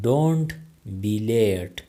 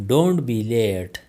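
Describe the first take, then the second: First: Said in the usual way. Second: Slowed-down classroom model; slow, careful. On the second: Shown as a demonstration. Teacher modelling the phrase for learners, slow. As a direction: say it slowly for learners. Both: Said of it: "teacher repeats the phrase twice".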